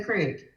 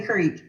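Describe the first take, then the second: First: Crick with a short i; pastor's pronunciation. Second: Creek with a long ee; own pronunciation. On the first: Retold or imitated. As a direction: say crick to rhyme with brick. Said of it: "if we say creek or crick". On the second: Shown as a demonstration. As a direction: say creek to rhyme with seek. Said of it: "If you ask me".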